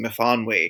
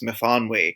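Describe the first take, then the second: First: The name is said with its Welsh pronunciation. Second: The name is said with its Welsh pronunciation.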